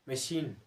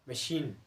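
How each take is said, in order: The two takes are said the same way.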